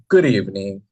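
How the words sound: It is said in a disgusted tone.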